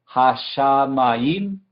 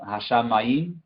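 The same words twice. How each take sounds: First: "hashamayim" in slow, separated syllables, rising at the end; syllable-by-syllable pronunciation. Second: Said in the usual way. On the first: Shown as a demonstration. Teacher introducing the second part of the verse, syllable by syllable. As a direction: stretch "hashamayim" slowly into ha-sha-ma-yim. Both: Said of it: "Y después la segunda parte".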